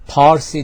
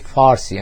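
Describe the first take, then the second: First: The word begins with a P sound. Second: The word begins with an F sound. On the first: This is the original native form. The speaker calls it right. "It must be P" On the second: This form comes from speakers who cannot say P. The speaker calls it wrong. "they say Farsi"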